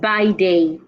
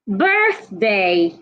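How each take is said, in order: First: It has no th sound in the middle. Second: It has a th sound in the middle. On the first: The speaker calls it wrong. "not by day" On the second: The speaker calls it right. "remember the T H sound?"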